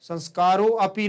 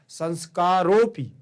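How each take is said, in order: First: The 'a' is pronounced as a separate syllable. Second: The 'a' is silent and merged into 'o'. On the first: The speaker calls it wrong. "संस्कारो अपि नहीं" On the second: The speaker calls it right. "ध्यान रखना, संस्कारोपि"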